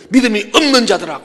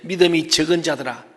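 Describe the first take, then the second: First: Loud, higher-pitched reproach; harsh rebuke. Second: Mild, restrained reproof; somewhat gentle. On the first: Preacher quotes Jesus rebuking the faithless, harsh and loud. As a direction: come down hard on them, loud and raised. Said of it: "조금 부드럽게 하고, 어때?". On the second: Preacher quotes Jesus chiding disciples, somewhat gently. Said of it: "조금 부드럽게 하고". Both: Acted.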